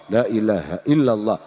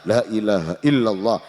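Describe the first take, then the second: No difference in how they are said.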